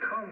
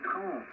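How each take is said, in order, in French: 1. Le mot est prononcé en entier et clairement, comme 'trente'. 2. Le mot est écourté et ressemble à 'trois'. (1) "il faut vraiment dire trente" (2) "tu dis trente"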